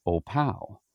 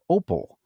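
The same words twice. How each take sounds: First: "Opal" said oh-PAL, second syllable stressed; local pronunciation. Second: Said in the usual way. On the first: Shown as a demonstration. Pastor sorting foreigners from Wyoming locals, "Opal" as oh-PAL. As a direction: hit the end of "Opal", as in oh-PAL. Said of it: "but it's pronounced Opal". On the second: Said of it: "it looks like Opal".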